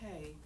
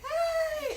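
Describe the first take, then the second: First: The greeting sounds flat and low. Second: The greeting sounds upbeat and cheerful.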